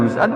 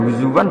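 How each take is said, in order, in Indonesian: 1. Konsonan tengahnya adalah hamzah. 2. Konsonan tengahnya adalah bunyi w. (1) "pakai hamzah" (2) "Imam Asim bacanya di masternya huzuan"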